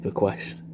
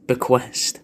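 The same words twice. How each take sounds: First: Whispered, savouring the word Bequest. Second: Said in the usual way. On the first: Shown as a demonstration. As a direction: breathe Bequest softly, tasting each sound. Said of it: "which is a lovely word". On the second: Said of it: "a mad little word".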